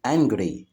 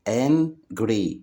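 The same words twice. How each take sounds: First: Said in the usual way. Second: "angry" broken as an, pause, gry; split into syllables. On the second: Shown as a demonstration. Teacher showing children two syllables, "angry" split in two. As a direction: say "angry" in two separate beats. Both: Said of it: "فيها مقطعين صوتيين".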